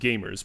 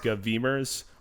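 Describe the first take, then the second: First: It is said with a plain 'game' first syllable. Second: It is said as three syllables beginning 'gov'. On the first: The speaker calls it right. "Pronounced gamers" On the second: The speaker calls it wrong. "not govemers"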